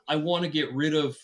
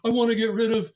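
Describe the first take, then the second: First: It is said in the speaker's normal voice. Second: It is said in a put-on imitated voice.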